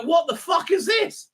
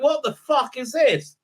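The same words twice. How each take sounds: First: Much higher, shouted what the fuck; an outraged shout at a terrible scene; incredulous shout. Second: A slowed, disbelieving what the fuck; baffled quote. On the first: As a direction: yell it at the screen in disbelief. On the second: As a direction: drag it out in puzzled disbelief. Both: Retold or imitated. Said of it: "Every time I look at that, I go".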